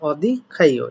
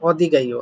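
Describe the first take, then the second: First: Said slowly, the second word starts with k. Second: Said together, the second word starts with g. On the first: "যদি আপনি আসতে পারেন অদি খাইও এটা পড়তে পারেন" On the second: "একসাথে যখন"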